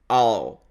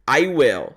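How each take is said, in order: First: The words merge into one short syllable. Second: Two separate words, both fully pronounced. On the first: "ele junta essas duas palavras" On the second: "a maneira escrita seria I will"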